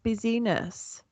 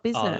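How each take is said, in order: First: The first part sounds like 'busy', three syllables. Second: The first part sounds like 'biz', two syllables. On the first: "it should be pronounced busyness" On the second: "not business"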